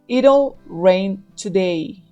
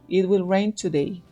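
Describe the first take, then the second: First: It will is shortened to one syllable, it'll. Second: It will is said as two full words.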